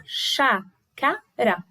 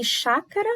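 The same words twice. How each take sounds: First: "chácara" bem devagar, CHÁ, CA, RA; separação de sílabas. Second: Said in the usual way. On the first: Shown as a demonstration. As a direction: dite "chácara" com pausa em cada sílaba. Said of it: "três". ("chácara" silabado e pausado)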